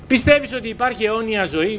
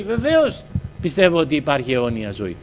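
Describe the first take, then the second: First: Higher-pitched question, rising on "ζωή". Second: Lower-pitched statement, falling to "ζωή"; affirming answer. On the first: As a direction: ask it as a probing question, lifting "αιώνια ζωή". Retold question put to him. (ερωτηματικά, με ανέβασμα στο «ζωή») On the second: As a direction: answer firmly, leading on "Βεβαίως" and settling down. His retold affirmative answer. (καταφατικά, με πτώση στο τέλος) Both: Retold or imitated.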